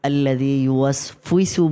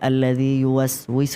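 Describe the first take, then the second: First: An f sound comes before the ending. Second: A w sound comes before the ending. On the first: The speaker calls it wrong. "বেশি দেখা যায় ... বলে ফেলে" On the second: The speaker calls it right. "এটা বলতে পারে না"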